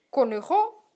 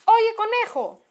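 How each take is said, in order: First: Questioning, rising to oneself; puzzled thought. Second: High, drawn-out call from outside. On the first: Fox thinks over the name he heard, puzzled. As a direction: wonder at the word with a rising tune. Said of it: "pensó el zorro". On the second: Someone outside calls to the rabbit, calling out. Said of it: "gritó alguien desde afuera". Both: A narrator's reading.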